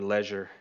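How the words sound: It is said in a British accent.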